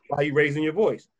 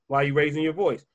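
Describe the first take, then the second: No difference in how they are said.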